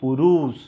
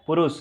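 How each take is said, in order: First: The u vowel after r is long. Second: The u vowel after r is short. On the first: The speaker calls it wrong. "ना कि पुरुष" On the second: The speaker calls it right. "ये रू छोटा होगा क्योंकि क्या होता है? पुरुष"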